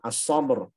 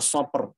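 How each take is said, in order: First: The middle consonant is a strong, voiced b. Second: The middle consonant sounds like a voiceless p. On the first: The speaker calls it right. "ba di tengah as-sabr" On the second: The speaker calls it wrong. "jangan dibaca as-sabr, jangan jadi P"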